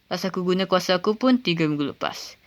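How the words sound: The line is delivered in the softest tone. "Or even a bit more softer"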